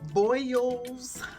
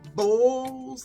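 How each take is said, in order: First: The vowel is an 'oy' sound, like boils. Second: The vowel is a plain 'oh' sound, like bowls. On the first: This is how someone else insists it is said. "he likes not bowls. It's boil" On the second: This is how the speaker herself says it. "I always say bowls"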